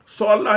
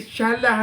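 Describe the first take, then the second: First: The word begins with an emphatic 's' sound. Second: The word begins with an 'sh' sound. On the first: The speaker calls it right. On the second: The speaker calls it wrong.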